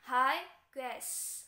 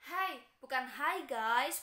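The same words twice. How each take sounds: First: Hi guys with guys as ges; correct reading. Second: Hi guys as guys with a flat wrong vowel; wrong pronunciation shown; wrong reading. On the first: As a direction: say guys the taught way. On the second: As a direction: read guys incorrectly. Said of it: "bukan seperti itu ya". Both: Shown as a demonstration.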